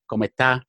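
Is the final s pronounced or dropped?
dropped. The final s is swallowed, southern style.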